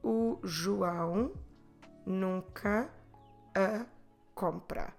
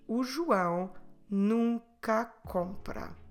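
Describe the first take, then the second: First: Said slowly, with nunca and a kept apart. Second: Said smoothly, with nunca and a merged together. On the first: "If I say it very slowly" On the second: "when we run these words together"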